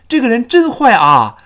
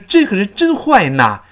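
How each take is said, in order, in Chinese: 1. 语气词读作普通的 'a'。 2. 语气词读作 'na'。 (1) "就非常别扭" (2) "就非常别扭"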